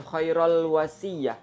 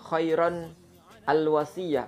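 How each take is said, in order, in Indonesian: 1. Kata pertama berakhir 'rul' sebelum wasiyah. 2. Kata pertama berakhir 'ron', lalu 'al' yang terpisah. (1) "bukan ... keliru"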